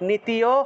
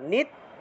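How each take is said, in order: First: The ti syllable is stretched out and separate. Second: The t and y are joined with no drawl. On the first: The speaker calls it wrong. "অনেকে নীতিয় নীতিয় উচ্চারণ করে ফেলেন, নীতিয় হবে না" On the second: The speaker calls it right. "তিতে গিয়ে টান দেওয়া যাবে না, নিত্য, নিত্য, এইভাবে"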